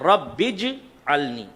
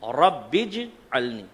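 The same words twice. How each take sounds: Both takes have the same delivery.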